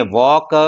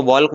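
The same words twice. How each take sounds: First: वॉक with long vowel straight into K; silent L. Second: वॉल्क with an audible L before K; L wrongly sounded. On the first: Shown as a demonstration. Teacher corrects the children, वॉक without any L. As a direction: say वॉक with no L at all. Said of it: "तो इसको हम बोलेंगे". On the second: Retold or imitated. Teacher imitates children's mistake, वॉल्क with the L spoken. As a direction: say वॉल्क pronouncing the L. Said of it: "जो कि गलत है".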